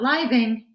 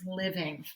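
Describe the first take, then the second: First: The first vowel is a long 'eye' sound. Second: The first vowel is a short 'ih' sound. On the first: The speaker calls it wrong. "So it's not living" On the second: The speaker calls it right. "it's living"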